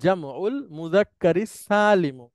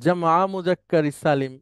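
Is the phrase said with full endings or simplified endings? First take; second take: full endings; simplified endings. First: Every word keeps its full ending. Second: The endings are dropped and the article is missing. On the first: This is how it is said in Arabic. "মূলত এইটা হচ্ছে উচ্চারণ আরবিতে।" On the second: This is an easier everyday way of saying it. "ওইটা তো একটু বলতে কঠিন হয়ে যায়, সেজন্য আমরা ... এভাবে বলি"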